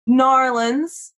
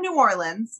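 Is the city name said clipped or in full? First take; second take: clipped; full. First: The name is squeezed into a short local form. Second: The name is said in its full standard form.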